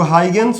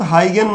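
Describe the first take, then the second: First: हाइगेन्स with an s sound on the end; हाइगेन्स, closing on an added s; alternative pronunciation. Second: हाइगेन ending on n, without the s; हाइगेन, closing on a plain n sound; preferred pronunciation. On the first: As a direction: say हाइगेन्स ending in "-ns". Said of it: "कुछ लोग हाइगेन्स बोलते हैं". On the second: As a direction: say हाइगेन with no final s. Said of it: "but हाइगेन नाम है इनका". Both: Shown as a demonstration.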